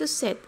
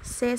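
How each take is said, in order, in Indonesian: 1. Kata ini diakhiri bunyi T. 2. Kata ini diakhiri tanpa bunyi T. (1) "Kalau tiga itu set" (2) "menjadi se saja"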